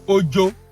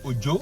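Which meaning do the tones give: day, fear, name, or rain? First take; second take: fear; name. First: Its tones give the word meaning 'fear'. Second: Its tones give the word meaning 'name'. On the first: "O J O can be fear" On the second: "O J O can be name"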